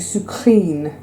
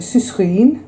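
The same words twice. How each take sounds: First: The start sounds like French 'sucre'. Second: The start does not sound like 'sucre'. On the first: The speaker calls it right. "as you would pronounce sucre, as in sugar" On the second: The speaker calls it wrong. "I've been saying sucrine for about four years"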